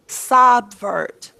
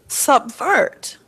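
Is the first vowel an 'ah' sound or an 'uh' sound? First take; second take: ah; uh. First: The first vowel sounds like 'ah'. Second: The first vowel sounds like 'uh'. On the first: The speaker calls it wrong. "Does that sound natural?" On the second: The speaker calls it right. "So sub is short U or schwa"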